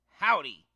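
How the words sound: It is said in an angry, harsh tone. The character is feeling angry.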